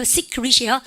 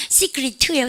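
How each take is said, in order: First: 시크릿 with the last T unreleased; silent final T. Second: 시크릿 with an added released "t" at the end; final T sounded. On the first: Teacher contrasting endings, "시크릿" without audible T. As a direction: stop "시크릿" before the T is released. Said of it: "안 하거든". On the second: Teacher contrasting endings, "시크릿" with released T. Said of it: "끄트머리 자음은". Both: Shown as a demonstration.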